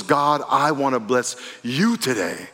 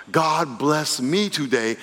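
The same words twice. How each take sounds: First: "God, I wanna bless you today", slow, landing on you; preacher voicing a giving prayer, you stressed. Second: "God bless me today", slow, leaning on me; preacher voicing a selfish prayer, me stressed. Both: Shown as a demonstration.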